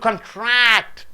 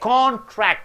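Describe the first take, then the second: First: The stress is on the second syllable. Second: The stress is on the first syllable. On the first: It means to shrink. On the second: It means an agreement.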